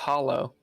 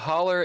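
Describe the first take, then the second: First: The word ends in an 'oh' sound. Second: The word ends in an 'er' sound. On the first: This is the standard form of the word. "It's actually a hollow, is what it is" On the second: This is how it is said locally. "a holler is the way you say it"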